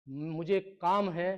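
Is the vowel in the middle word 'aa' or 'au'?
aa. The vowel in the middle word is 'aa'.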